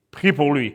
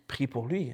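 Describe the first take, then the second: First: "Prie pour lui" firm and commanding, stronger than the murmur; God's big voice. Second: Much softer, a quiet inner prompting "Prie pour lui"; soft murmur. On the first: God insisting the pastor pray, firm big voice "Prie pour lui". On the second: God first nudging the pastor softly, murmured "Prie pour lui". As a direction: say "Prie pour lui" as a gentle whisper-like nudge. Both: Retold or imitated. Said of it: "quand Dieu prend sa grosse voix".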